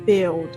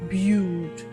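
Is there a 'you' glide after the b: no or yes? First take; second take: no; yes. First: The b goes straight into a short i. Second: A 'you' glide follows the b. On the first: The speaker calls it right. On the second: The speaker calls it wrong. "not build, like you have been pronouncing it"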